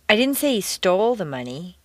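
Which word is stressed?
stole. The stress is on the word stole.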